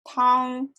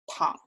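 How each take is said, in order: First: The pitch stays high and level. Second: The pitch stays very low. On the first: It means soup. "For soup" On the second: It means to lie down. "For to lie down"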